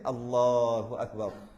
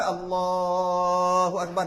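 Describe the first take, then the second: First: The phrase is said short and quick. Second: The phrase is drawn out long.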